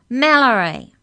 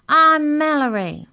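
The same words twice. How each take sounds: First: High, very loud shout of a name; louder shout. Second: High, drawn-out loud shout. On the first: Mallory corrects the giant who misheard, shouting louder. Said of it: "even louder". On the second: Small Mallory introduces herself to giants, shouting. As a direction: shout the name up to someone far above. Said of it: "shouted Mallory". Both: A narrator's reading.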